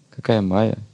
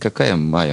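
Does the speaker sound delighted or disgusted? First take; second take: delighted; disgusted. First: It sounds delighted and admiring. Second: It sounds disgusted and dismissive. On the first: The thing seen is attractive. "Смело, с радостью" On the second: The thing seen is unpleasant. "Когда мы видим неприятные вещи"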